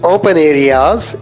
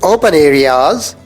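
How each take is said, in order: The two takes are said the same way.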